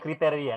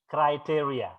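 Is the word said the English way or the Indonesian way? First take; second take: Indonesian; English. First: The word is said with Indonesian pronunciation. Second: The word is said with English pronunciation. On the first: The speaker calls it wrong. "Bukan kriteria. Kalau kriteria bahasa Indonesia ya" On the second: The speaker calls it right.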